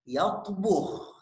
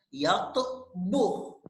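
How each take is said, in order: First: It is said quickly as one word. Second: It is said slowly, syllable by syllable. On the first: "Sekarang mempercepat pengucapan kita" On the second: "dengan pelan-pelan"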